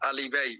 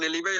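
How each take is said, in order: First: The word begins with an 'a' vowel sound. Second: The word begins with an 'e' vowel sound. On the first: It is said jokingly, following the spelling. "আমি দুষ্টামি করে বলি আলিবাই" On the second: It is the actual pronunciation of the term. "আপনার উচ্চারণ এলিবাই হলো"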